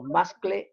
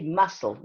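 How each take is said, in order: First: It has a k sound in the middle. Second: It has no k sound, like castle. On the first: The speaker calls it wrong. "no muscle" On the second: The speaker calls it right. "You say muscle"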